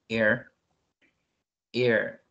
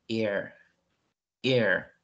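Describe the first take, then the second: No difference in how they are said.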